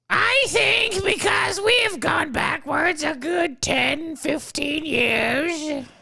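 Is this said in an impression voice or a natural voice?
impression. It is said in a put-on imitating voice. "Not a good Whoopi?"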